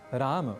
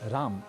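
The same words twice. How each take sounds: First: The word ends with a vowel after 'm'. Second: The word ends on a bare 'm' sound. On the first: The speaker calls it right. "ऐसा कहें" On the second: The speaker calls it wrong. "न कहें"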